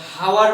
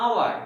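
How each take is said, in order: First: হাওয়ার with the h sounded; wrong h sound. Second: আওয়ার with a silent h, starting on the vowel. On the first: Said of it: "not হাওয়ার". (হ উচ্চারণ করে হাওয়ার) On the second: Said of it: "এটা আওয়ার বলছি". (হ বাদ দিয়ে আওয়ার) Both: Shown as a demonstration.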